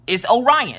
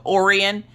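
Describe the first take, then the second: First: "Orion" said as oh-RYE-un; correct pronunciation. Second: "Orion" said as OR-ee-un; mispronounced name. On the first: Mom correcting how staff say her son's name, correct pronunciation. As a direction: stress the middle of "Orion", oh-RYE-un. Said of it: "that's not how you say it". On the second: Mom quoting clinic staff who get the name wrong, mispronounced. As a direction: stress the first syllable of "Orion", OR-ee-un. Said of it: "he always has to correct". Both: Retold or imitated.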